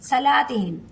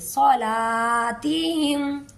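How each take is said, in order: First: The first syllable is said thin and light. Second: The first syllable is said full and heavy. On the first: The speaker calls it wrong. "अक्सर लोग सलातिहिम पढ़ देते हैं, सलातिहिम, ये गलत है।" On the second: The speaker calls it right. "सो स्वाद को पुर पढ़ेंगे"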